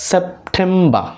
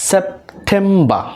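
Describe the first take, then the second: No difference in how they are said.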